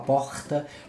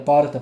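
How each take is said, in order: First: The R is said in a Florianópolis accent. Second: The R is said in a São Paulo accent. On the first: "em Floripa a gente fala" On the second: "aqui em São Paulo é"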